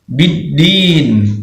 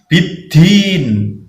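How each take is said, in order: First: The consonants are released without a puff of air. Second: The consonants are released with a puff of air. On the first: The speaker calls it right. "Jadi bidin" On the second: The speaker calls it wrong. "bukan bidin"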